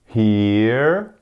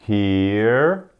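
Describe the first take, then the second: Both takes have the same delivery.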